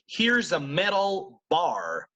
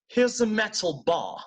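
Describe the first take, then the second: First: It is said in an American accent. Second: It is said in a British accent. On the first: "if I'm speaking in American English" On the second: "But if I'm British"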